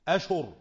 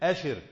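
First: Sh takes a u vowel, and r is single. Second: Sh takes an i vowel, and r is single. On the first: "بضم الشين مع فتح الهمزة" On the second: "قراءة الجمهور أشر على وزن فرح"

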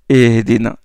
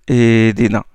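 No difference in how they are said.

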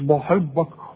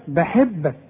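First: The b sound is heavy and full. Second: The b sound is light and thin. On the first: The speaker calls it wrong. "مش بحبك" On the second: The speaker calls it right. "الباء دائما مرققة"

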